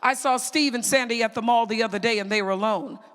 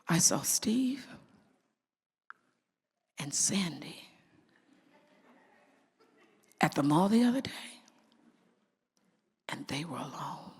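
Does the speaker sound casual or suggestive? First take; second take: casual; suggestive. First: The tone is casual and matter-of-fact. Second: The tone is suggestive and insinuating. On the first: Nothing unusual happened. "Big deal. The words and the tone, big deal" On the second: Something improper may be going on. "But what if I did this?"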